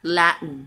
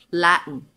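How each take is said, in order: No difference in how they are said.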